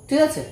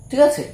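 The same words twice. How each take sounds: Both takes have the same delivery.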